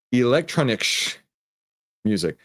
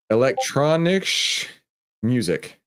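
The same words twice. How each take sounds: First: Steadier retake of "Electronic sh-, music"; second try at the phrase. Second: Slow, careful stab at "Electronic sh-, music", first word lifted high; sounding out "Electronic sh-, music" haltingly; careful try at a German phrase. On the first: Streamer retrying a chat phrase, more settled. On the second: Streamer attempting a chat phrase, careful and halting. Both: Shown as a demonstration. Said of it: "I'm gonna try here".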